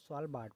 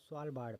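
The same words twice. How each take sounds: First: The r sound is dropped from the name. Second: The r sound is pronounced in the name. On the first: "यहाँ पर आर silent हो जाता है" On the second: "American English में बोलें तो इसको स्वालबार्ड पढ़ा जाएगा"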